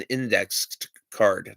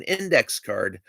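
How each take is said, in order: First: "indexed" with its ending sounded, a D after index; final D on indexed. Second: "index" with no D on the end; index without the D. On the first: Explaining the card's name to viewers, "indexed" with a final D. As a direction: say "indexed" carefully, ending on the added D. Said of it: "indexed with a D at the end". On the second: Correcting the card's name for viewers, "index" without final D. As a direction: say "index" bare, straight into "card". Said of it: "not an index card". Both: Shown as a demonstration.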